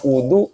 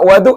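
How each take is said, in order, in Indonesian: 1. Vokal pertama adalah bunyi u. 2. Vokal pertama bukan bunyi u.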